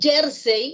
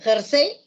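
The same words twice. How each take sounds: First: The stress is on the first syllable. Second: The stress is on the second syllable. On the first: It is a kind of fabric spelled with Y. "así como está con Y de yo-yo, es grave" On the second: It is the garment spelled with J. "Jersey es aguda"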